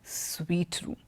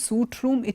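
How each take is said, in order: First: The first word sounds like 'sweet'. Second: The first word sounds like 'suit'. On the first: The speaker calls it right. "it is a sweet room" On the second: The speaker calls it wrong. "it's not a suit room"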